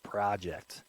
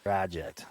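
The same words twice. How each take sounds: First: It is said with an American 'ah' vowel. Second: It is said with an American 'ah' vowel.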